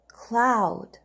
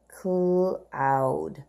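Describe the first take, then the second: First: Said in the usual way. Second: Cloud stretched long and low; slow model read. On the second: Shown as a demonstration. Teacher modelling cloud slowly for the class. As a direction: draw out cloud for young readers. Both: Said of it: "Let's read the words together".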